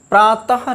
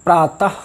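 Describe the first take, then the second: First: प्रातः with a full voiced ha at the end; wrong visarga. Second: प्रातः ending in a short breath; correct visarga. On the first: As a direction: say प्रातः as praa-ta-ha. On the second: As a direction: say प्रातः with a light visarga, no full ha. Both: Shown as a demonstration. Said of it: "नहीं".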